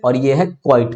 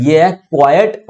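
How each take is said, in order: First: क्वाइट as "kwite", one syllable; one-syllable pronunciation. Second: क्वाइट as "KWAI-yut", in two syllables; two-syllable pronunciation. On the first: Teacher recaps the difference for students, one-syllable quite. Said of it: "आप समझ गए होंगे". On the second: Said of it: "Q U I E T". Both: Shown as a demonstration.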